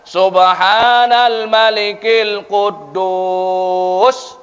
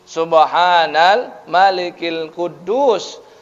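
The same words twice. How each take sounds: First: It is said drawn out and loud. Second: It is said plainly at normal length and volume.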